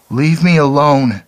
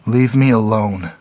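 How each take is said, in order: First: High, loud wail. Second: Put-on girl's plea. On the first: The girl wailing at Clark to leave her, high and loud. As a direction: cry out in despair. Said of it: "she wailed". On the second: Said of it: "she said". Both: A narrator's reading.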